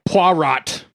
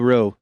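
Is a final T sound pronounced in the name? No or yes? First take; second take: yes; no. First: The name ends with an audible T sound. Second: The name ends without a T sound. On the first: The speaker calls it wrong. "Where they like" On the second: The speaker calls it right. "you wouldn't pronounce the T"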